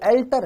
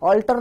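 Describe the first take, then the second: First: The first vowel sounds like 'e' in 'bet'. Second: The first vowel sounds like 'aw' in 'law'. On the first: The speaker calls it right. "वो एल्टर है।" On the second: The speaker calls it wrong. "हम बोलते ही pronounce गलत करते हैं। ऑल्टर नहीं है"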